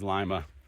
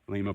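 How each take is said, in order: First: It sounds unlike the name of Peru's capital. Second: It sounds like the name of Peru's capital. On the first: This is how the local town is named. The speaker calls it right. "It is Lima" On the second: This is how the city in Peru is named. The speaker calls it wrong. "So it's not like Lima, Peru"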